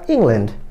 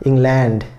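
First: The stress falls on the first syllable, Eng. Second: The stress falls on the second syllable, land.

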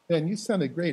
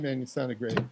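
First: The praise is said warmly and sincerely. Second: The praise is said lightly and offhandedly. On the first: The praise is truly meant. The speaker calls it right. "I really mean that" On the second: The praise is not really meant. The speaker calls it wrong. "the same level of sincerity"

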